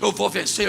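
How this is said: It sounds elated and confident.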